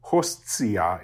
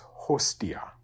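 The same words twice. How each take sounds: First: Hostia said as HOST-see-ah, with ts; wrong TS version. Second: Hostia said as HOS-tee-ah, with a clean t; plain T version. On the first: Teacher shows students what to avoid, hostia with a ts. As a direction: put a ts into hostia: hos-tsi-a. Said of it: "but not". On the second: Teacher corrects to the proper form, hostia with a plain t. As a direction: keep a simple t in hostia, softer: hos-ti-a. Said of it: "because there's an S there". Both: Shown as a demonstration.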